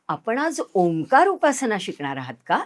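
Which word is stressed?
Omkar. The stress falls on the word Omkar. The question is which practice you will learn. "म्हणजे तुम्हाला ओंकार उपासना शिकायची आहे का गायत्री"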